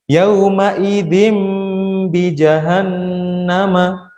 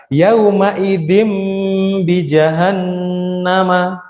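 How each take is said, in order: Both takes have the same delivery.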